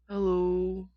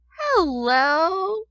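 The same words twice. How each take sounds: First: It is said without a smile. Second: It is said with a smile.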